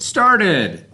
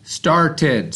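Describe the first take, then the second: First: The finished word, proudly; higher, brighter "Started.". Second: Said in the usual way. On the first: Shown as a demonstration. Teacher reveals the blended word to kids, lifted higher. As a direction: say "Started." again, lifting it up. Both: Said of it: "So the word is S, T, R, T, E, D".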